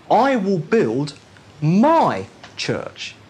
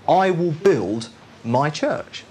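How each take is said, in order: First: "my" held and pressed harder than "I will build"; stress on MY. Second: Said in the usual way. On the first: Shown as a demonstration. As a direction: lean on the word "my" in "my church". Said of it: "Now that's the emphasis". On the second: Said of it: "the emphasis that I want there is this".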